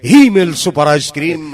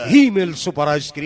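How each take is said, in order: First: Louder brand name call; loud slogan. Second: Said in the usual way. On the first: Shown as a demonstration. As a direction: punch out the slogan. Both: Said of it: "slogan repeated".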